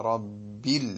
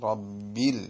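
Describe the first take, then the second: The two takes are said the same way.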